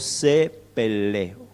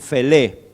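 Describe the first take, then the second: First: The word begins with a P sound. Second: The word begins with an F sound. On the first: The speaker calls it right. "se pronuncia como una P" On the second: The speaker calls it wrong. "algunos dicen Felé"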